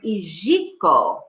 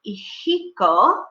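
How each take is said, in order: First: The j is a soft zh sound. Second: The j is a harsh guttural sound. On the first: This is the Ladino pronunciation. "more like actually a French um, sound, like in the word bonjour" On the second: This is the Spanish pronunciation. "in Spanish, the J is pronounced, it's like a guttural sound"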